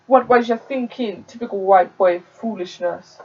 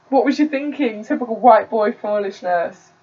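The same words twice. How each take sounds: First: Put-on a light Jamaican accent on a scolding mum; hesitant first go at a Jamaican mum's telling-off. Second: Put-on a light Jamaican accent, scolding, pitch pushed up on "What was you thinking". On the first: Narrator voices Delroy's mum scolding him, light Jamaican accent. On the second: Narrator retakes Delroy's mum scolding him, light Jamaican accent. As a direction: retake the Jamaican mum's telling-off. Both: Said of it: "I don't wanna do that accent".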